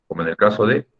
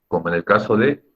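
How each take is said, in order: No difference in how they are said.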